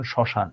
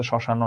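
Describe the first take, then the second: First: শ্মশান closed on the n, no vowel after; correct closed ending. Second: শ্মশান wrongly ending in an o vowel; wrong open ending. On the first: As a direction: say শ্মশান as "shoshan". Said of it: "এটার উচ্চারণ শ্মশান". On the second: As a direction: say শ্মশান as "shoshano". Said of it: "এটার জন্য শ্মশান না". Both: Shown as a demonstration.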